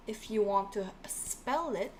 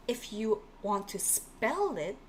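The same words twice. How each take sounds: The two takes are said the same way.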